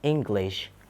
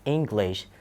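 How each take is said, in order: First: The first vowel is relaxed. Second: The first vowel is relaxed.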